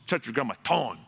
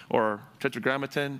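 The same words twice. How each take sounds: First: Tetragrammaton said with a little extra flair on each syllable; saucy pronunciation. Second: Said in the usual way. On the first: Shown as a demonstration. Pastor playfully dressing up a Hebrew term for the congregation, with a little sauce. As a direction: give Tetragrammaton a bit of sauce, rolling it out with relish. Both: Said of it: "I like to give it a little sauce".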